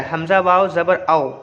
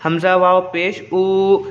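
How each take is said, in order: First: आओ said as one short glide; quick leen reading. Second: ऊ held long, stretched out; drawn-out vowel. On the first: Teacher contrasting leen with madda for pupils, आओ read quickly. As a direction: read आओ quickly, without stretching it. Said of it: "मतलब जल्दी पढ़ेंगे". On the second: Teacher showing pupils how madda letters are read, ऊ drawn out. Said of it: "वो खींच के पढ़ाता था". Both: Shown as a demonstration.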